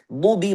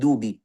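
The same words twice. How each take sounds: First: The first consonant is heavy, from the tongue's side. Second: The first consonant is a light, plain d sound. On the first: The speaker calls it right. "dad itu kita mau tebalkan" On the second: The speaker calls it wrong. "biasanya kita tukar dengan dal aja"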